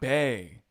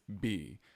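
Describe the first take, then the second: First: The vowel sounds like the one in day. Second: The vowel sounds like the one in see. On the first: The speaker calls it wrong. "that is not Bay" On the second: The speaker calls it right. "It's B"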